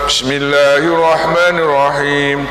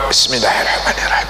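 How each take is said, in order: First: The phrase is spoken aloud in full voice. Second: The phrase is whispered quietly.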